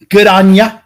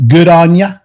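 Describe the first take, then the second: First: Mock Australian, pitched up a touch; Australian accent. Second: Said in the usual way. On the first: Host imitating an Aussie catchphrase, lightly accented. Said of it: "as [name] would say".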